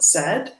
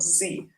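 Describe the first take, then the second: First: The letter is said the Canadian way, zed. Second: The letter is said the American way, zee.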